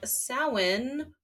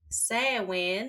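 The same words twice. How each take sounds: First: The word is not pronounced the way it's spelled. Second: The word is pronounced the way it's spelled.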